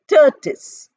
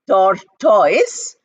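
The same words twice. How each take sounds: First: The ending is pronounced like 'tis'. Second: The ending is pronounced like 'toys'. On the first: The speaker calls it right. "but we say tortoise. Tortoise, T O R T O I S" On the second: The speaker calls it wrong. "We don't say tortoise"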